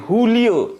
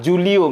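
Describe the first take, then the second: First: The name begins with an H sound. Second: The name begins with a J sound. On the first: "J itu menjadi H" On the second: "J itu menjadi H"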